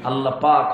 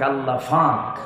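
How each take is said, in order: First: The second word begins with a p sound. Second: The second word begins with an f sound. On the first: The speaker calls it right. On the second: The speaker calls it wrong.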